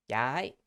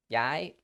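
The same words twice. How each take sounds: The two takes are said the same way.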